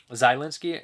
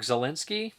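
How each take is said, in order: First: "Zielinski" opening with a long "zye"; alternative pronunciation. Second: "Zielinski" opening with a short "zuh"; first pronunciation attempt. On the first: Retrying a commenter's name, "Zielinski" said zye-LIN-skee. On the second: Reading a commenter's name, "Zielinski" said zuh-LIN-skee. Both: Real, not acted. Trying two pronunciations of a surname.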